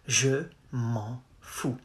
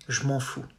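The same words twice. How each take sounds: First: Je is said as its own full syllable. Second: Je is squeezed together with m'en.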